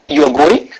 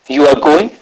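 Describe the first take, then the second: First: The pitch rises at the end. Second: The pitch rises at the end.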